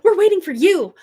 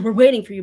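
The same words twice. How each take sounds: First: It sounds eager and excited. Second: It sounds impatient and put out. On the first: They are eager to have this person join. The speaker calls it right. "but like, ... we're so excited to get you in" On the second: They are annoyed at having to wait. The speaker calls it wrong. "not like, oh"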